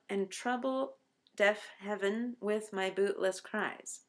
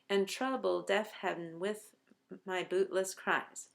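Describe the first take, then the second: First: Both trouble and heaven keep two syllables. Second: Heaven is squeezed into a single syllable. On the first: The speaker calls it wrong. "has eleven syllables if you read it this way" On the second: The speaker calls it right. "heaven to happen on just one beat"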